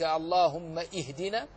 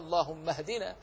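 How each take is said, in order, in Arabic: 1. تُنطق همزة قبل ihdina. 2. تتصل الكلمتان بلا همزة. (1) "أم تقول جهلا منك" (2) "بل هو اللهم اهدنا، لأنها همزة وصل"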